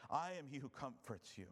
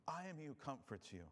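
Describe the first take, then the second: First: Said in the usual way. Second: Gentler, softer second reading; a quiet reassuring echo; softer repeat. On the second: Shown as a demonstration. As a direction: let it land tenderly. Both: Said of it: "repeated line".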